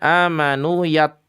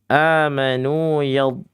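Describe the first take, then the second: First: The final consonant is made at the tongue's front. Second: The final consonant is made with the tongue's sides. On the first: The speaker calls it wrong. "Kalau di depan" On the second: The speaker calls it right. "Titik penekanannya di lidah samping kanan, samping kiri"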